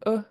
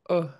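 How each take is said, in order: First: The vowel is said on a high pitch. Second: The vowel is said on a low pitch.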